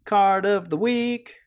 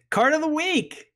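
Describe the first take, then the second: First: Slow, higher drawn-out announce; slow announcer voice. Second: Announcer voice. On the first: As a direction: stretch the title out grandly. Segment jingle outro. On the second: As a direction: belt out the segment title. Segment jingle intro. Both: Acted.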